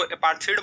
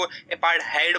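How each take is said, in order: First: अपार्थीड said with a long ee in the middle, apar-THEED; apartheid with ee. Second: अपार्थाइड said with an ai diphthong, apar-THAID; apartheid with ai. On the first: Teacher showing one way students say अपार्थीड. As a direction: say अपार्थीड ending in -theed, not -thaid. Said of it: "कुछ लोग इसको अपार्थीड बोलते हैं". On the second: Teacher showing the other way students say अपार्थाइड. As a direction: say अपार्थाइड ending in -thaid, not -theed. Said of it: "कुछ लोग इसको अपार्थाइड बोलते हैं". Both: Shown as a demonstration.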